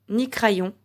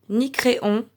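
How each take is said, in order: The two takes are said the same way.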